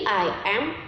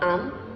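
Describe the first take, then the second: First: Two separate syllables are said in full. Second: The two words merge into one syllable. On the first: "Tadi I am" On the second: "sekarang kok am?"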